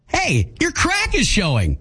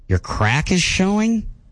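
First: It sounds warm and supportive. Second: It sounds let down and disappointed.

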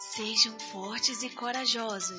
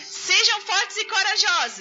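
First: It is said very quietly. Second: It is said very quickly.

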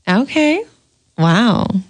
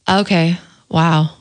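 First: It sounds flirty with a growl. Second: It sounds disappointed and let down.

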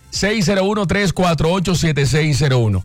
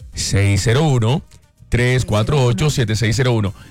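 First: The number is said at normal speed. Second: The number is said more slowly.

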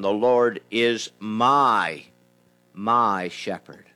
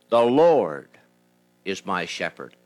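First: The stress is on the word my. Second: The stress is on the word Lord.

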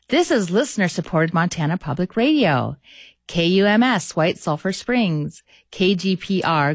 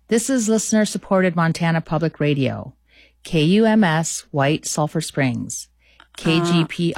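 First: It is read brightly with high energy. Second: It is read flatly with low energy.

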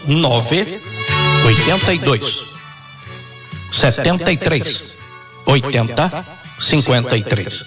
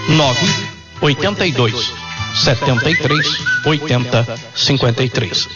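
First: The number is said slowly. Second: The number is said at normal speed.

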